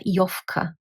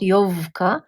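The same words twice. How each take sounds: First: The consonant before k sounds like f. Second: The consonant before k sounds like v. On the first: The speaker calls it right. "v becomes f" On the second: The speaker calls it wrong. "It's not Jovka. You can't even pronounce it"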